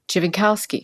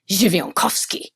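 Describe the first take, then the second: First: The surname is said with an anglicized pronunciation. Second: The surname is said with a Polish pronunciation. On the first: The speaker calls it wrong. "And I said" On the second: The speaker calls it right. "She says, "No"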